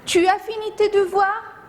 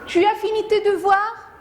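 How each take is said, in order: First: It is said as a question. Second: The same.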